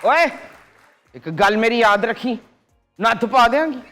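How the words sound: It is said in an angry tone.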